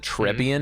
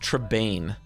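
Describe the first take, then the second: First: The name ends with a 'bee-an' sound. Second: The name ends with a 'bain' sound. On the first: The speaker calls it wrong. "I've been calling it the Trebian" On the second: The speaker calls it right. "but it's Trebain"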